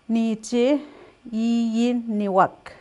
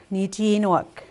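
First: "Niche, iniwak" slow with each syllable apart. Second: "niche iniwak" run together into one smooth phrase; natural speaker way. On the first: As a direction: sound out "iniwak" slowly, syllable by syllable. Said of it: "saying it syllable by syllable". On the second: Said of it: "the way a speaker would say it". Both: Shown as a demonstration.

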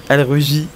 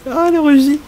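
First: Said in the usual way. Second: High-pitched delighted squeal; gushing squeal. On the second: Real, not acted. Player gushing as the game character blushes, delighted squeal.

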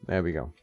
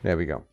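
The two takes are said the same way.

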